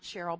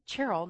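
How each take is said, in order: First: The name begins with a soft sh sound. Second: The name begins with a hard ch sound. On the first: The speaker calls it wrong. "not Cheryl" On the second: The speaker calls it right.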